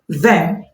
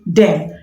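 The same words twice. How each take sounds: First: It starts with a voiced th sound. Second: It starts with a d sound. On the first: The speaker calls it right. "Instead of saying them" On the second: The speaker calls it wrong. "substitute the voiced th sound with the sound d"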